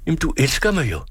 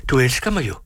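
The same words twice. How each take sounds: First: Højere, mere indtrængende og bedende; desperat bøn. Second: Forfærdet. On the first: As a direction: tigger hende om at sige ja. Gentager bønnen mere indtrængende. (højere, desperat gentaget bøn) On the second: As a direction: let forfærdet, spørgende. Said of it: "forfærdet over hendes ubevægelighed". (mildt forfærdet bøn) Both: A narrator's reading.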